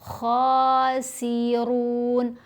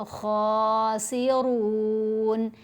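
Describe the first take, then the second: The two takes are said the same way.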